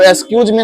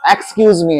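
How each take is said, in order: First: The word 'excuse' ends with a 'j' sound. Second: The word 'excuse' ends with a 'z' sound. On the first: The speaker calls it wrong. "तो एक्सक्यूज me नहीं है" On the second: The speaker calls it right. "ये एक्सक्यूज me है।"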